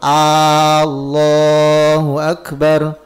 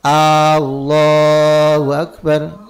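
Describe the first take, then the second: No difference in how they are said.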